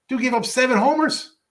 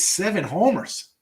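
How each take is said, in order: First: High, louder disbelief on homers; can't believe the number; incredulous. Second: Said in the usual way. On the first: Real, not acted. Repeats stat in disbelief.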